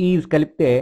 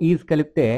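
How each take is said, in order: The two takes are said the same way.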